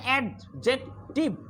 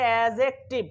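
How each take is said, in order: First: The 'd' sound is clearly pronounced. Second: The 'd' sound is left out. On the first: The speaker calls it wrong. "অনেকে এটার উচ্চারণ করে অ্যাডজেক্টিভ" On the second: The speaker calls it right. "আসলে এখানে ডির উচ্চারণ হয় না"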